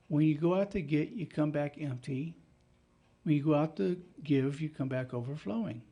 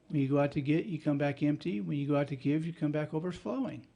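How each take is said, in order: First: It is said slowly. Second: It is said at a normal pace.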